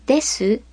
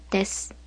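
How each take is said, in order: First: です with a voiced final u; です said "de-su", last vowel kept; full vowel. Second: です with the final u dropped; です said "des", no last vowel; devoiced vowel. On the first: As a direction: sound both beats in です, de-su. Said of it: "are whispered or not said at all". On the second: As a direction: end です on a bare s, "des". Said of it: "becomes です". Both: Shown as a demonstration.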